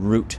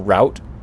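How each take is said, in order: First: It is said like the plant word root. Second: It is not said like the plant word root. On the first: This is how many other people say it. "Root to me means like the root of a plant" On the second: This is the speaker's own preferred way. "I prefer route"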